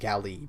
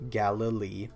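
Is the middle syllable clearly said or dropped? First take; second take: dropped; clear. First: The second syllable is skipped or swallowed. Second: The second syllable is clearly pronounced. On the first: The speaker calls it wrong. "I'm not wanting to pronounce that second syllable. I'm, I'm just saying Galilee, but that's not right" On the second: The speaker calls it right. "It's Galilee"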